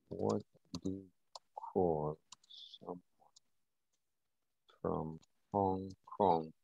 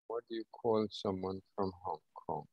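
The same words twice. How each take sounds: First: Slow, each word set apart by long pauses. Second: Said in the usual way. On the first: Shown as a demonstration. Repeating the question to the chat, slow and word by word. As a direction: spell the question out one word at a time, slowly. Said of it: "repeats the question word by word". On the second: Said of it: "repeats the question, second take slower".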